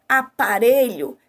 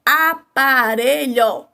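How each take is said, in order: First: Said in the usual way. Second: "Aparelho" slowly, a-pa-re-lho; syllable by syllable. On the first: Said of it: "Exemplo, a palavra". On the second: Shown as a demonstration. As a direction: sound out each syllable of "Aparelho" at half pace. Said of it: "eu tenho três sons aí".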